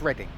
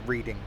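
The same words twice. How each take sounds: First: The first vowel is short, like red. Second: The first vowel is long, like reed. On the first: The speaker calls it right. "it's Reading. It's with, you know, R E D D I N G" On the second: The speaker calls it wrong. "as opposed to reading"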